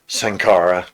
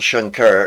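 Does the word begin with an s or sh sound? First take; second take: s; sh. First: The word begins with an s sound. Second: The word begins with an sh sound. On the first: The speaker calls it right. "I should just pronounce it as an S, not an S H" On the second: The speaker calls it wrong. "apologies for my mispronunciation"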